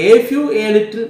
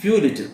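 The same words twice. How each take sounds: First: "A few, a little" with the "A" pushed up and loud; stress on the articles. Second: Said in the usual way. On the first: Shown as a demonstration. Teacher correcting "few little" for students, punching "A". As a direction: lean hard on "A" in "A few, a little". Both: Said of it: "അവിടെ മാറിപ്പോയി few little ആണ്".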